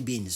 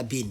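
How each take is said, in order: First: BEANS with an audible S after the N; correct plural form. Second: BEAN ending on N, with no S sound; wrong singular form. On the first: Teacher correcting to the plural, final S sounded. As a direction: finish BEANS on a clear hissed S. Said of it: "on dit beans, toujours". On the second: Teacher showing the form to avoid, no final S. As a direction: say BEAN bare, stopping on the N. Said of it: "On dit pas bean". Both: Shown as a demonstration.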